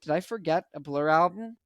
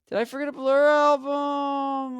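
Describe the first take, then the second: First: Said in the usual way. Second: Mock panic. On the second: Vlogger finding an album missing, mock-panicked wail. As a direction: repeat it as a long, high cry of disbelief.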